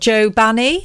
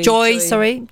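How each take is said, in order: First: The first name ends in a plain 'oh' vowel. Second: The first name ends in an 'oy' vowel. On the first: The speaker calls it wrong. "Is that how you say it?" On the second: The speaker calls it right. "It's Joy"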